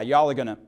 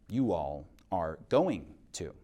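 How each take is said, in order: First: It is said in a Southern, reduced way. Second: It is said in a standard, full way. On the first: The speaker calls it wrong. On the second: The speaker calls it right.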